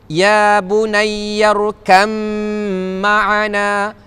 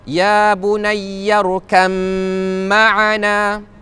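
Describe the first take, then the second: Both takes have the same delivery.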